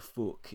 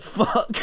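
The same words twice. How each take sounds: First: "fuck" said as "fook"; mock-phonetic "fook" for "fuck"; Northern-spelling pronunciation. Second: Said in the usual way. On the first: Shown as a demonstration. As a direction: say "fuck" with the vowel of "book". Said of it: "they write fuck instead of fuck". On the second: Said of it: "instead of fuck".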